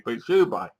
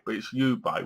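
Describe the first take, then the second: First: Ubay said as you-bay, stressed you, falling; jokey brand name. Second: Ubay said as you-bay, the you spoken clearly; jokey brand name. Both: Shown as a demonstration. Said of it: "Get the name right".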